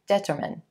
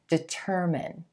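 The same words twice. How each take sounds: First: The stress is on the first syllable. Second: The stress is on the second syllable. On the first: The speaker calls it wrong. "the tendency is to put this stress on the first syllable" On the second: The speaker calls it right. "You want to shift that stress to the second syllable"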